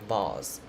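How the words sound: It is said in a British accent. "in British and Australian they will say vase"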